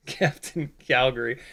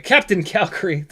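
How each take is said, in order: First: Softly laughing through the name. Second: Said in the usual way. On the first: Real, not acted. Streamer amused by a chat name, laughing softly. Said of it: "I don't know why I'm laughing at that". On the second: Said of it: "I don't know why I'm laughing".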